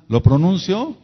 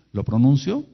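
First: Higher and louder, pushing for an answer; preacher repeating his question to the crowd, louder and higher. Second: Said in the usual way. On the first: Real, not acted. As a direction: demand the reply from the crowd.

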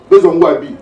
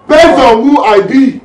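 First: Said in the usual way. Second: Loud, raised, drawn-out vow; forceful vow. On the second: Acted. Squad leader swearing to his squad, forceful vow. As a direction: stretch it slowly and proclaim it loudly.

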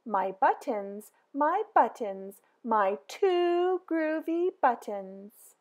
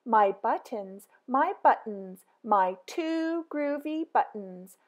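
The two takes are said the same way.

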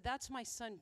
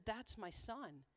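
First: Said in the usual way. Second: Slow, hushed and softer, a touch of tears; choked-up quote. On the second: Retold or imitated. Speaker retells the father's tearful words, slow and hushed. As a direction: let it catch in the throat, quietly. Moved father sees his son.

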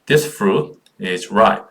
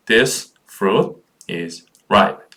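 First: Said in the usual way. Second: "This fruit is ripe" with a clear pause after each word. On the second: Shown as a demonstration. Repeats the sentence word by word. (한 단어씩 끊어 읽기)

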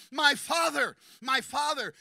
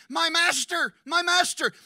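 First: Loud, high cry full of love; tender but loud cry; warm cry. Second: Loud anguished cry, high; a pleading, high cry. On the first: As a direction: cry out to a beloved father. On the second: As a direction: cry out to him from the heart. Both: Acted. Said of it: "Listen to the warmth in his voice when he cries out".

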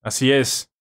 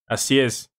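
The two takes are said the same way.

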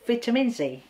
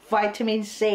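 First: "vitamin" said as VIT-uh-min; British-style VIT in "vitamin". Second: "Vitamin" said as VY-tuh-min; American-style VY in "Vitamin". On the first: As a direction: say "vitamin C" with a short i. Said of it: "what is correct for you". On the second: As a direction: say "Vitamin C" with a long i. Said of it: "vitamin is American". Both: Shown as a demonstration.

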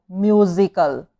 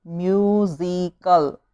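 First: Said in the usual way. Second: Musical drawn out slowly, split into syllables. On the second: Shown as a demonstration. Teacher counting syllables for pupils, musical said slowly in parts. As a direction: break musical into slow, separate syllables. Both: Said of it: "three syllable".

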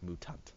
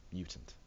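First: "mutant" said MOO-tahnt; softly shown moo-tahnt reading of "mutant"; misreading. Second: Said in the usual way. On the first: Shown as a demonstration. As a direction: say "mutant" with oo, no y glide. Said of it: "I'm reading it like mutant". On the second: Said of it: "I guess you want mutant".

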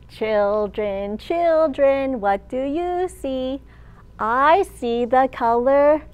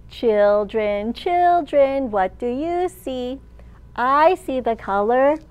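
No difference in how they are said.

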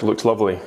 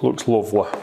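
First: Said in the usual way. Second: Looks lovely in a light Yorkshire accent, lovely said as luvly. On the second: Shown as a demonstration. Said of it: "I should say it in a Yorkshire accent".

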